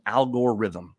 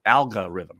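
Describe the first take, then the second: First: "algorithm" said as "Al-Gore-rithm"; mispronounced. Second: Said in the usual way. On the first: Shown as a demonstration. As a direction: say "algorithm" with Al Gore's name inside it. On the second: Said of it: "Oh, no, no, not Al Gore".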